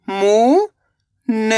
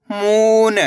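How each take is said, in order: First: मू, long pause, न; मून split slowly, rising first syllable. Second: मून joined, long ऊ; blended word. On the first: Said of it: "एक अक्षर का उच्चारण करना है". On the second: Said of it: "तो मिलके बन जाएगा". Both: Shown as a demonstration.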